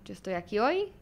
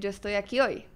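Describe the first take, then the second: First: It ends rising, as a question. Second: It ends falling, as a statement.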